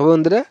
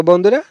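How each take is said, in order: The two takes are said the same way.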